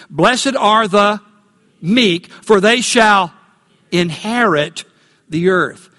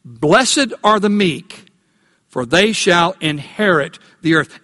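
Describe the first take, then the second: First: Slow, with stress and a pause before "meek" and "inherit"; "Blessed are the... meek", slow and emphatic, breaking before key words; emphatic recitation. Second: Said in the usual way. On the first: Shown as a demonstration. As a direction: lean on "meek", "inherit" and "the earth", setting each apart. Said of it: "Emphasize these words with me". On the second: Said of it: "So let's say it again".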